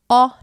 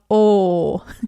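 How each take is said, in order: First: The vowel is said with an open mouth. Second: The vowel is said with a closed mouth. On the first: "use all the open vowels" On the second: "not o"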